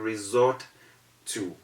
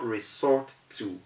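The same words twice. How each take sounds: First: The s is said as a buzzing z. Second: The s is said as a hissing s. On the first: The speaker calls it right. "you resort to" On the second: The speaker calls it wrong. "Here you do not resort to"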